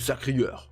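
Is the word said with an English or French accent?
French. It is said with a French accent. "A Frenchman would say"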